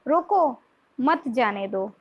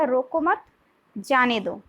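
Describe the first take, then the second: First: There is a pause right after रोको. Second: There is a pause right after मत.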